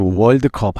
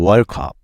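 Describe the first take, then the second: First: The 'd' is pronounced as a full syllable. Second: The 'd' is dropped, with the words run together. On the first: The speaker calls it wrong. "월드컵 하면 못 알아듣고" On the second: The speaker calls it right.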